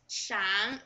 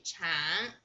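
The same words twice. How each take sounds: First: Said in the usual way. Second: 长 said as chang with a rising second tone. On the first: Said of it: "Sorry, this is also". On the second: Shown as a demonstration. Teacher correcting her typo for learners, 长 with a clear rising tone. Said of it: "And this is the second tone".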